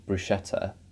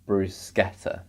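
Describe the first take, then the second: First: The middle consonant is said as 'sh'. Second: The middle consonant is said as 'sk'. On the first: The speaker calls it wrong. "that's a sh sound ... I'm also inclined to say bruschetta" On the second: The speaker calls it right. "is it sk, like school?"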